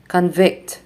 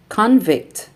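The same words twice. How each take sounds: First: ConVICT, stressed on the second syllable; verb stress. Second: CONvict, stressed on the first syllable; noun stress. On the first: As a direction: reduce con, land on VICT in convict. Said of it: "verbs are stressed on the second syllable". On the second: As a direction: hit CON in Convict, then fall. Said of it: "nouns are stressed on the first syllable". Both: Shown as a demonstration.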